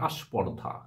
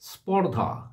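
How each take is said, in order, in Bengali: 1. sp-এর আগে একটি অতিরিক্ত স্বরধ্বনি a আসে। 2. শব্দটি সরাসরি sp যুক্তব্যঞ্জন দিয়ে শুরু হয়। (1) "অনেকেই বলে থাকে আস্পর্ধা" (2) "স্পর্ধা সংযুক্ত ব্যঞ্জন স্প"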